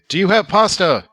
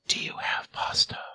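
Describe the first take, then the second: First: It is said in a normal voice. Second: It is said in a whisper.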